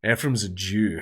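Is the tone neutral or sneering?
sneering. It is said in a sneering, contemptuous tone. It is meant as an insult. The speaker calls it wrong. "then it becomes not fine"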